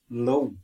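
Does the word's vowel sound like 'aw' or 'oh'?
oh. The vowel sounds like 'oh', as in 'low'. This is how other regions say it. "Other places they pronounce it low, like low"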